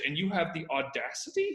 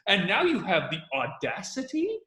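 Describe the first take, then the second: First: It is said flatly, without much energy. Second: It is said with surprised, energetic emphasis.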